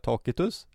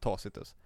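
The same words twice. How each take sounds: First: The c is pronounced as a k sound. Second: The c is pronounced as an s sound. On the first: A pedantic, classical way of saying the name. "om han vill vara en liksom anal och säga Tacitus" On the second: A relaxed, everyday way of saying the name. "den mer slappa versionen Tacitus"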